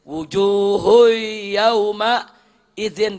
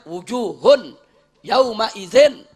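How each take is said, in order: First: The n sound merges into the following y. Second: The n sound is pronounced clearly before y. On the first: The speaker calls it right. "Mestinya wujuhui, kan begitu mestinya" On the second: The speaker calls it wrong. "Udah nggak ada idghamnya tuh"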